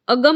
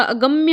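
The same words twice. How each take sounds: First: अगम ending on a single m, no य; mispronunciation demo. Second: अगम्य ending in a clear "mya"; correct pronunciation. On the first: Teacher showing the mistake, अगम without its final ya. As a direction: stop अगम on the m. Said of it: "अगम नहीं होता". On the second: Teacher correcting students, अगम्य with final mya. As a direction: add the य after m in अगम्य. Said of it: "अगम्य होता है". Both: Shown as a demonstration.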